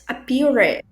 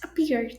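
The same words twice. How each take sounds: First: The ending is said as an extra syllable. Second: The ending is a bare d sound. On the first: The speaker calls it wrong. "Cuidado para você não falar appeared" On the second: The speaker calls it right. "não se fala o E. Então vai ser appeared"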